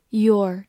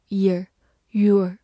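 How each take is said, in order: First: "your" said as yor, twice; pronouncing your. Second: "ear" said slowly, then "your"; alternative pronunciation. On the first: Teacher modelling "your" for students. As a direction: give "your" its full yor sound. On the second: Teacher showing the other way to say "your". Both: Shown as a demonstration. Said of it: "或者读作ear".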